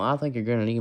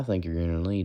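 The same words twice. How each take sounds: First: The voice is pushed from the throat, raspy. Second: The voice is plain, without a throaty rasp.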